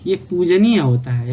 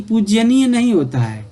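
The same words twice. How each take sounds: First: पूजनीय said plainly as "pujaniya", no y after j; teacher giving the correct पूजनीय, pujaniya; correct form. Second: पूजनीय said as "pujyaniya" with an extra y sound, higher and louder; teacher voicing the wrong spelling पूजनीय as pujyaniya; wrong form shown. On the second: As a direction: say पूजनीय wrongly as pujya-niya to show the mistake. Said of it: "पूजनीय आपका ये त्रुटिपूर्ण है". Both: Shown as a demonstration.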